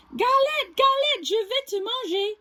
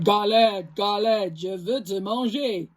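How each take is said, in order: First: High, light take before the correction; squeaky wrong bear voice; high mistaken take. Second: Low gruff bear voice; lower, heavier bear voice. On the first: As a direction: say it too high, not like a bear. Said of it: "Oh, I should have said". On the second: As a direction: growl it like a big bear. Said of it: "gronde l'ours à sa grosse voix". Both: Acted.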